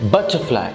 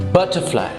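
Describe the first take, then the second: Both takes have the same delivery.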